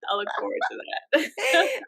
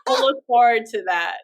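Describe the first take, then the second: First: Laughing. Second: Said in the usual way. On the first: Real, not acted. Repeats while laughing.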